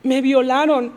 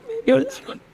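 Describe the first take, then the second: First: Mildly raised, distressed admission; pained confession. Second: Higher-pitched, imitated crying confession; tearful. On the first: Retold or imitated. Girl finally telling her friend, openly distressed. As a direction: blurt out the retold confession clearly. First retold disclosure to friend. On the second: Crying girl repeating it to her friend, tearfully. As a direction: let the retold words break into weeping.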